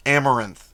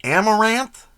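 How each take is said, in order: First: Amaranth said AM-uh-ranth with a firm falling end; settled pronunciation. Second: Amaranth said AM-uh-ranth with a questioning rise; unsure pronunciation. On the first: Settling on a paint name, firm Amaranth. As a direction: state Amaranth flatly, decided. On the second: Testing how to say a paint name, questioning Amaranth. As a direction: try out Amaranth, rising like a question. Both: Shown as a demonstration. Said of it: "I don't know how to say that".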